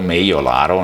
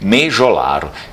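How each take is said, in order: First: The middle consonant sounds like a 'y' glide. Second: The middle consonant sounds like a 'zh' or 'j'. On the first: This is the original Venetian reading of the name. The speaker calls it right. "na verdade no Vêneto é Meiolaro" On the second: This is the local Brazilian reading of the name. The speaker calls it wrong. "apesar de serem lidos de um modo incorreto"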